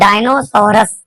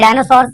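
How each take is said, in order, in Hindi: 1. यह स्पेलिंग के अनुसार dino-sau-rus बोला जाता है। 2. यह dinosaurs की तरह, सामान्य उच्चारण में बोला जाता है। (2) "बोलते डायनासोर्स हैं"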